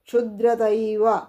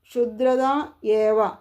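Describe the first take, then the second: First: The two words merge into one word. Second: The two words are said separately.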